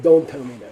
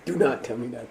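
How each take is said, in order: First: It is contracted into one syllable. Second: It is said in full as two syllables. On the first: "It's an abbreviation" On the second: "If you don't want to say do not"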